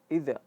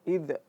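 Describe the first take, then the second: First: The final consonant bounces with a glottal release. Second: The same.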